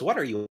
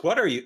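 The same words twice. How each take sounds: First: Lightly voiced grown-up sidekick, kept in the usual register; adult Robin. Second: Higher, quick mock-indignant question; young-sounding Robin. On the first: Friend redoes the sidekick's line as an adult, more restrained. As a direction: ask it evenly, as the older sidekick. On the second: Friend quotes the sidekick before correcting to the adult one, higher voice. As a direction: ask it a touch high, as boy sidekick. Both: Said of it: "like, adult Robin goes".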